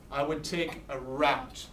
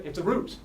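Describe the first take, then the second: First: "route" rhyming with out; standard "route". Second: "route" rhyming with boot; Philadelphia "route". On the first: Teacher driving through the country, "route" said as "rowt". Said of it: "In Philadelphia, it's a route". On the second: Teacher showing Philadelphia talk, "route" said as "root". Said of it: "In Philadelphia". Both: Shown as a demonstration.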